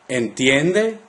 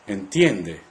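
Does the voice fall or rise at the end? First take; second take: rise; fall. First: The pitch rises at the end of the word. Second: The pitch does not rise at the end. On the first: It asks whether the listener understands. "Notice the rising intonation at the end when you ask a question" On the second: It states that the listener understands. "Say, you understand"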